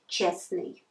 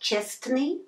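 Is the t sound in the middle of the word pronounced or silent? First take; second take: silent; pronounced. First: The middle t sound is dropped entirely. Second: The middle t sound is clearly pronounced. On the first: The speaker calls it right. "we just drop this t" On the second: The speaker calls it wrong. "Not честный"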